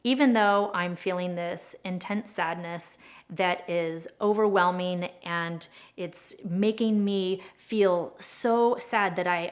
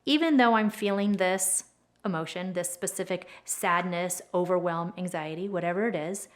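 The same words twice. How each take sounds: First: Much slower, dragging, heavy with sadness; slow sad statement. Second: Calm demo statement. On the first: Tapping coach demonstrating, slowed down and sad. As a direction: stretch the words as if about to cry. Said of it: "So as we're saying". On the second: Tapping coach modelling the setup statement calmly. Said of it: "The setup statement sounds something like". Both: Shown as a demonstration.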